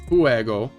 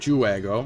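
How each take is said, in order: First: The name begins with an H sound. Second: The name begins with a J sound. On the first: The speaker calls it right. "I think is how you pronounce it" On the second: The speaker calls it wrong. "not Juego"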